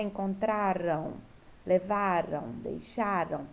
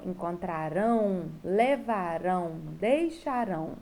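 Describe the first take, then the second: First: "Encontraram, levaram, deixaram" stressed on the next-to-last syllable, word by word; unstressed "ram" ending. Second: "encontrarão, levarão, deixarão" each stressed on the final "rão"; stressed "rão" ending. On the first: Teacher illustrating the past ending, "Encontraram, levaram, deixaram" stressed on the penultimate. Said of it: "A terminação ran". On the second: Teacher illustrating the future ending, "encontrarão, levarão, deixarão" stressed on the last syllable. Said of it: "a terminação rão". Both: Shown as a demonstration.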